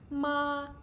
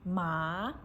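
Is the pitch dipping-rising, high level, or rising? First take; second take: high level; rising. First: The pitch stays high and level. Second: The pitch rises from middle to high. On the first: "first tone. It's a high level" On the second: "Second tone, rising"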